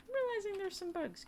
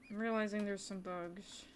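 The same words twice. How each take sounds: First: High-pitched, thin-volume singsong complaint; high put-on voice. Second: Said in the usual way. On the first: Streamer telling viewers about bugs, high put-on voice. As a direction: repeat it way up high.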